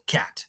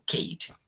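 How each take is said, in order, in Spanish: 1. La vocal es un sonido de 'a' corta y abierta. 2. La vocal suena como el nombre de la letra 'ay'. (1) "sino digo cat" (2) "yo no digo Kate"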